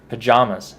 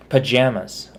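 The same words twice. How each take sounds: First: "pajamas" said puh-JAH-muz; pa-JAH-mas pronunciation. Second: "Pajamas" said puh-JAM-uz; pa-JAM-as pronunciation. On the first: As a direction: middle vowel of "pajamas" as in "father". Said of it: "I always call it pajamas". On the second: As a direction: middle vowel of "Pajamas" as in "jam". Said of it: "I don't know why I did pajamas". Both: Shown as a demonstration.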